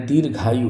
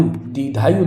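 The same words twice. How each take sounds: First: Said in the usual way. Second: दीर्घायु as "didhayu", r and g lost; mispronounced दीर्घायु. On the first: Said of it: "दीर्घायु होता है". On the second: Shown as a demonstration. Teacher showing the wrong form, दीर्घायु as "didhayu". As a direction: drop the rg from दीर्घायु. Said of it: "दीर्घायु नहीं होता है".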